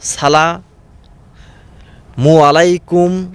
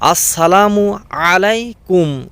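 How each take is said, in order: First: The first word is shortened to salamu. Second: The first word is said in full as assalamu. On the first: The speaker calls it wrong. "কত রকমের উচ্চারণ" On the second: The speaker calls it right. "আমি বলি"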